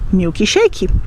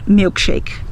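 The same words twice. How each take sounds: First: It is said with a Brazilian Portuguese pronunciation. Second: It is said with an English pronunciation. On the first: "nós diremos milkshake" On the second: "nós não vamos dizer milkshake"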